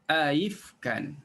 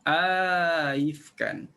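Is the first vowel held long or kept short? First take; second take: short; long. First: The first vowel is short, without lengthening. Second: The first vowel is lengthened before the second hamza. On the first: "tanpa idkhal alif" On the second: "beza dengan kolon, baca panjang dulu hamzah pertama"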